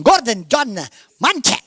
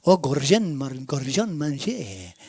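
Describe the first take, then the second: First: Punchy mock Italian accent. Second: Mock French accent, lower and drawn out. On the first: Preacher imitating people saying his name in Italian, Italian accent. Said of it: "They may say it in Italian". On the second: Preacher imitating people saying his name in French, French accent. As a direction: say the name like a Frenchman, low and slow. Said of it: "say it in a French accent".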